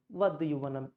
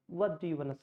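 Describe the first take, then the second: No difference in how they are said.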